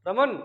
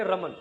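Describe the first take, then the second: First: रमन with the second syllable drawn out; longer name call. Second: रमन said short and low; short name call. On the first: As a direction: stretch रमन a little, double length. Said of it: "दुगना समय लग जाए". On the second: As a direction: say रमन quickly to someone beside you. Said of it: "पास में ही बैठा है". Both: Shown as a demonstration.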